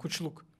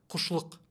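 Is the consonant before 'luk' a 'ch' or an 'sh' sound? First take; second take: ch; sh. First: The middle consonant is a 'ch' sound. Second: The middle consonant is an 'sh' sound. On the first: This is the original form of the name. The speaker calls it right. "в оригинале его имя было как Кучлук" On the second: This is how the name is rendered today. The speaker calls it wrong. "А у нас как сейчас переводят? Как Кушлук. Да, стараются вот ше добавить"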